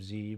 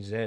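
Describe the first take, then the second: First: Z pronounced "zee"; Z the American way, "zee"; American letter name. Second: Z pronounced "zed"; Z the Canadian way, "zed"; Canadian letter name. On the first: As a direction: say Z as "zee", rhyming with see. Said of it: "for saying Z instead of Z". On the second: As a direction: say Z as "zed", ending in a D. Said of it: "made fun of me for saying Z instead of Z". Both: Shown as a demonstration.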